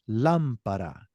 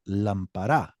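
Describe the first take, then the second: First: The stress is on the first syllable. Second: The stress is not on the first syllable. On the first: The speaker calls it right. "Notice how my voice is raised there?" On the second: The speaker calls it wrong. "I don't say lampara"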